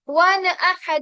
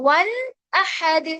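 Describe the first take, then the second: First: The n sound bounces back before the next word. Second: The n sound is held cleanly before the next word. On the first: The speaker calls it wrong. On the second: The speaker calls it right.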